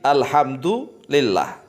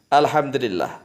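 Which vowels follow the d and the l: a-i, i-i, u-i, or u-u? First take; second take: u-i; i-i. First: The d takes u and the l takes i. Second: The d takes i and the l takes i. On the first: This is the agreed standard reading. "Ini yang disepakati" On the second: The first vowel follows the second. "dengan kasrah dalnya"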